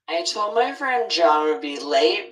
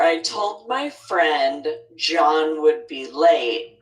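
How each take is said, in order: First: It is spoken fast with the words run together. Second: It is spoken slowly with each word clearly separated. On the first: "I'm going to say a sentence fast first" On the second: "What I intended to say was"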